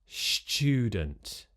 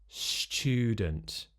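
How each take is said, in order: No difference in how they are said.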